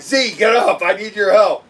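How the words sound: It is said with a lot of panic.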